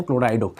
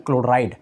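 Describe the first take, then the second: First: क्लोराइडो with a clear final o after the d; क्लोराइडो ending in an open o; ido ending. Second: क्लोराइड said with the plain ide ending, no final o; क्लोराइड ending on a hard d sound. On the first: Teacher showing students the ligand name: ido ending stressed. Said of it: "क्लोराइडो लिखेंगे". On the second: Teacher contrasting the usual chloride ending for students: plain. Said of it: "इसका नाम हम क्लोराइड नहीं लिखेंगे". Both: Shown as a demonstration.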